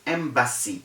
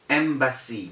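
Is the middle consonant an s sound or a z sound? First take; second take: s sound; s sound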